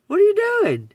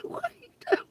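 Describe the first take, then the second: First: Much higher and louder, calling out the question in disbelief; loud incredulous call. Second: Breathless giggle, barely voiced, the words squeezed out high; almost swallowed by laughter, no voice; laughing whisper. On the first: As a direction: call it out at them, fully fed up. Repeats the question at them. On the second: Laughing at the people. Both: Real, not acted.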